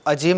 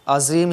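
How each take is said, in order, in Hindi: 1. बीच का व्यंजन 'j' की आवाज़ है। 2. बीच का व्यंजन 'z' की आवाज़ है। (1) "ये अजीम नहीं कहना है" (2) "अज़ीम ही कहना है"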